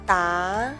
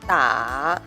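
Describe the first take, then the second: First: The pitch rises from mid to high. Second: The pitch dips low, then rises. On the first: "I will pronounce the second tone first" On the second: "third tone"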